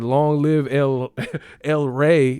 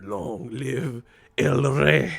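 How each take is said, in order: First: Slow line broken by laughter; lightly mocked Spanish dub. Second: Slow, grand Spanish-dub line; dramatic Spanish dub. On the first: Retelling the dubbed line to friends, half laughing. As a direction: repeat the dub line while cracking up. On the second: Retold or imitated. Quoting the Spanish Lion King dub, slow and grand. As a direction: draw it out like a solemn movie king. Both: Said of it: "motherfucker said".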